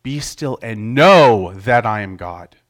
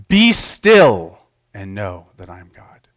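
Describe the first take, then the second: First: Slow, with "know" punched in the middle; stress on know. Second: "Be" hit hard at the start, rest falls away; stress on Be. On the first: Preacher moving the emphasis to "know", slow. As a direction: land the weight on "know". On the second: Preacher showing emphasis on "Be" to the congregation. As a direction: lean on the word "Be". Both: Shown as a demonstration. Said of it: "by changing the emphasis of the sentence".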